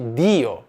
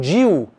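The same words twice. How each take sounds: First: The d is a plain, crisp d sound. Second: The d is softened toward a 'dj' sound. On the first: The speaker calls it right. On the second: The speaker calls it wrong.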